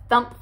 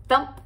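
The two takes are said the same way.

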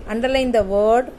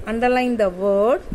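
Both takes have the same delivery.

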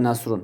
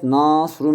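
First: Said in the usual way. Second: Nasrun'un ilk hecesi uzun: Naaasrun; uzun elifli a. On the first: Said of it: "mesela Nasrun'du değil mi". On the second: Shown as a demonstration. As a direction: Nasrun derken na hecesini iyice uzat, sonra srun de. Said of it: "Elifi faaliyet". (Nasrun'u elifle, uzun a ile söyle)

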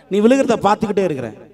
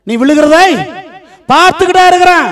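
First: Said in the usual way. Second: High, loud preacher's cry; raised, ringing pulpit declaration; forceful proclamation. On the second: Acted. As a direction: proclaim God's promise at full force. Promise repeated as forceful proclamation.

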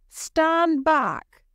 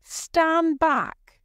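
First: High, loud warning cry; cried out. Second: High, loud soldier's command; soldier's order. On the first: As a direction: hold the crowd off with a shout. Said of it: "cried Miles". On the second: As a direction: bark him back sharply. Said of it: "said one of the soldiers". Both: A narrator's reading.

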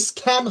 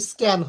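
First: "স্ক্যান" with a puffed KH after S; breath burst on the K of "স্ক্যান"; wrongly aspirated K. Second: "স্ক্যান" with a plain K after S; no puff on the K of "স্ক্যান"; unaspirated K. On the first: Teacher showing what is wrong, wrongly aspirated K. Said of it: "স্ক্যান হবে না". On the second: Teacher giving the corrected word, unaspirated K. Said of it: "কিন্তু স্ক্যান হবে". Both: Shown as a demonstration.

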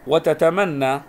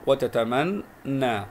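First: وتتمنى read whole, louder, as "wa-tatamanna"; doubled n. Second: وتتمنى broken slowly as "wa-tataman - naa"; split doubled letter. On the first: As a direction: press the double n of وتتمنى in one go. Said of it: "حرف مضاعف". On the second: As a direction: pause between the two n's of وتتمنى. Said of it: "نقرأها". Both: Shown as a demonstration.

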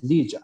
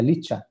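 First: "lilla" con ll sonora, como j inglesa; CHH suave y sonora. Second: "licha" con ch española; CH fuerte y sorda. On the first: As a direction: pronunciar "lilla" con voz en la consonante. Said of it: "la palabra es lilla". ("lilla" con sonido suave zapoteco) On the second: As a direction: pronunciar "licha" con ch sin voz. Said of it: "si es con una sola H". ("licha" con la ch de lechuga) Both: Shown as a demonstration.

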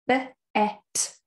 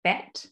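First: B-at split into b and at; sounding out words. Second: Said in the usual way. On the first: Shown as a demonstration. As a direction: sound out b-at slowly by letters. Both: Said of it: "you can sound out the words".

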